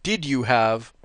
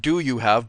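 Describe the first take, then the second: First: "did" stressed, slow and deliberate. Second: "do" stressed against "did". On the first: Reading out the question's real wording, stress on "did". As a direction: lean on "did" as the corrected word. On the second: Correcting the question as read, stress on "do". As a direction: lean on "do" as the word being corrected. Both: Shown as a demonstration. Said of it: "actually the question said, not".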